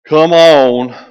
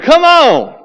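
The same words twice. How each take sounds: First: The voice sounds cold and annoyed. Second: The voice sounds warm and welcoming. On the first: The late arrival is not really welcome. "Now what you thinking?" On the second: The late arrival is genuinely welcome. "What you going to feel like? Cool"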